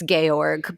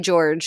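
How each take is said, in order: First: The name is said with German pronunciation. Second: The name is said with English pronunciation. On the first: "it's Georg ... it sounds like I'm trying to do a G- German accent" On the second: "technically George"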